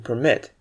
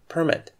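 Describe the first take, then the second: First: The stress is on the second syllable. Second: The stress is on the first syllable. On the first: It describes the action of allowing something. "when you describe an action of allowing something to happen" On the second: It names a document that authorizes something. "stress the first syllable in this case"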